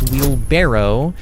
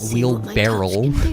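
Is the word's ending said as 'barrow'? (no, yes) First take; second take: yes; no. First: The ending is said as 'barrow'. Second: The ending is not said as 'barrow'. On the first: The speaker calls it right. "It's wheelbarrow" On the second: The speaker calls it wrong. "it is definitely not wheelbarrow"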